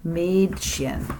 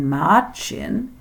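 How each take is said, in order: First: The first vowel is the umlauted sound. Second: The first vowel is a plain a sound. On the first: The speaker calls it right. "the umlaut makes the word sound like Mädchen" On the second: The speaker calls it wrong. "instead of saying Mädchen"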